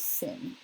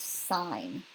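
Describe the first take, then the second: First: The vowel is short, rhyming with 'fin'. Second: The vowel is long, rhyming with 'fine'. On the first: The speaker calls it wrong. "do not pronounce it as sin" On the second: The speaker calls it right. "It is still pronounced sign"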